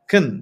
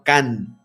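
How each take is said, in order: First: The vowel is weak and barely heard. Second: The vowel is full and clearly heard. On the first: The speaker calls it right. "fíjense cómo pronuncio la palabra can, como si no tuviera esa" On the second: The speaker calls it wrong. "no can"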